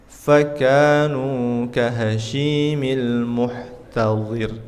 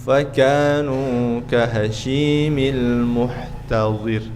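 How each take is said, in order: The two takes are said the same way.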